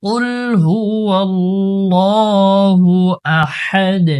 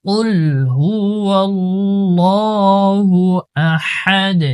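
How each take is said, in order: Both takes have the same delivery.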